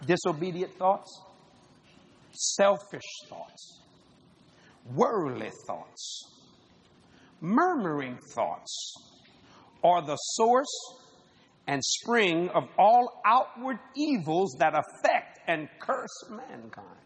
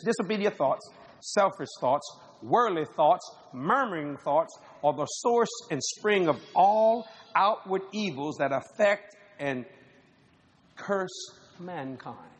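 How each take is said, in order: First: It is said slowly. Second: It is said at normal speed.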